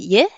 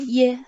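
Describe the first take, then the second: First: The syllable is said with a rising tone. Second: The syllable is said without the rising tone. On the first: "Avec le deuxième temps, ça fait ye" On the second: "I, E prononce ye"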